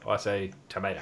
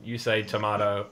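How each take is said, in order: First: "tomato" said to-MAY-to; "tomato" as tuh-MAY-toh; own pronunciation. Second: "tomato" said to-MAH-to; "tomato" as tuh-MAH-toh; other person's pronunciation. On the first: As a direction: say "tomato" with an ay sound in the middle. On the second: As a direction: say "tomato" with a long ah in the middle. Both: Shown as a demonstration. Contrasting two pronunciations of tomato.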